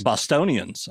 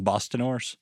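First: "Bostonians" repeated with a settled fall, accepting the correction; corrected word. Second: "Bostoners" said as a guess, rising and unsure; wrong word. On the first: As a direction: say "Bostonians" as you take the fix on board. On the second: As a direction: try "Bostoners" tentatively, as a mistaken guess. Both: Real, not acted.

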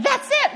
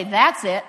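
First: High, loud, triumphant cry; eureka "That's it!". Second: Loud, final, dropping in pitch; firm, falling, giving-up finality; fed-up "That's it". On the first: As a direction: exclaim it as a sudden breakthrough. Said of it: "instead of saying". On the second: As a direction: declare you are done with it. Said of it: "we say, "That's it". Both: Shown as a demonstration.

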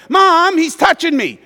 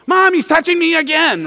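First: High, loud whining to mom; whiny tattling little sibling. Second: High, loud whining complaint to mom; whiny tattling little sibling. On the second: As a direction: whine it like a tattling little kid. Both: Retold or imitated. Siblings tattling in back seat.

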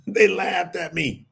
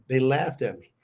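First: Repeated slowly through a laugh. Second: Said in the usual way. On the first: Real, not acted. Laughing slowly. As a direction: laugh while repeating it to the congregation.

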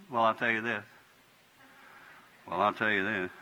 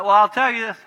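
First: Calmed down. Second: High and loud, heated; escalated voice. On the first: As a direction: lower and softer, calm. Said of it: "Go down". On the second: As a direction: let your voice go up in a quarrel. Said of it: "I'll double". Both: Shown as a demonstration.

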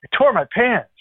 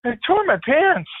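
First: Higher, hammed-up sheepish confession; mild comic embarrassment, voiced higher; sheepish admission. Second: Much higher, slow deadpan repeat; slowed hammed-up confession; slower sheepish repeat. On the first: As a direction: play the embarrassed officer lightly. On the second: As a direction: drag it out, comically resigned. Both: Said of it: "He goes".

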